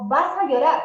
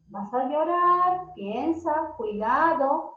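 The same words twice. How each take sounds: First: Put-on louder, a threatening warning to a child; mock scolding parent. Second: Gentle warning. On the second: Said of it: "es que digamos". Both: Shown as a demonstration.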